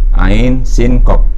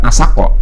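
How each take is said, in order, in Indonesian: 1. Setiap nama huruf dibaca panjang penuh. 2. Nama-nama huruf dipotong menjadi suku kata pendek. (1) "Ainnya enam, sinnya enam, kopnya enam" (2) "bukan asako"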